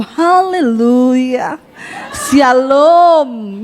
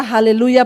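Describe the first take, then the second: First: Long drawn-out, slow greeting; sing-song church greeting. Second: Said in the usual way. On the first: Acted. Churchgoing couple greeting each other every day, drawn-out and sing-song. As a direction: stretch each syllable like a pious hello.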